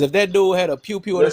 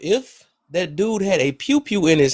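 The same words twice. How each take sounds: First: It is spoken at a normal conversational pace. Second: It is spoken slowly and clearly.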